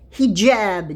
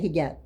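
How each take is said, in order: First: The middle consonant is a j sound. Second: The middle consonant is a hard g. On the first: The speaker calls it right. "It's hijab j" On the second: The speaker calls it wrong. "it's wrong to say hijab"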